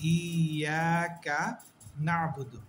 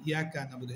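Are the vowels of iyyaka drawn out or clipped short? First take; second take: drawn out; clipped short. First: The vowels in iyyaka are drawn out. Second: The vowels in iyyaka are clipped short. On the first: The speaker calls it right. "ই এক আলিফ টানবো, আ এক আলিফ টানবো" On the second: The speaker calls it wrong. "অনেকে আমরা বলি ইয়াকা নাবুদু, এটা ভুল"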